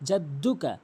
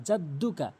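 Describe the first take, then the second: The two takes are said the same way.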